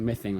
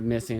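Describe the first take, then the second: First: The s sound is said with a lisp. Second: The s sound is said plainly. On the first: "like you know, with a lisp" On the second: "instead of missing"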